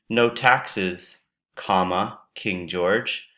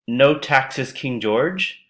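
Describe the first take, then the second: First: There is a clear pause after taxes. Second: It runs on with no pause after taxes. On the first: The speaker is addressing King George with a demand. The speaker calls it right. "I'm pretty sure you mean no taxes, comma, King George" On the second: King George is a king known for having no taxes. The speaker calls it wrong. "if you say it this way, it it sounds like King George is known for no taxes"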